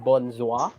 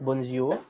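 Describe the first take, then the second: First: Bonjour said the right way; correct French pronunciation. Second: Bonjour said the wrong way for contrast; wrong pronunciation shown. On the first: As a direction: model Bonjour carefully, French style. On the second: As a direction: demonstrate the mistake on bonjour. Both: Shown as a demonstration. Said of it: "not bonjour".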